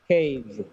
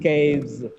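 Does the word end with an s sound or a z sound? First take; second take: z sound; z sound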